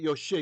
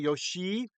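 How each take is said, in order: First: The i vowel is kept short. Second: The i vowel is held long. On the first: The speaker calls it wrong. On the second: The speaker calls it right.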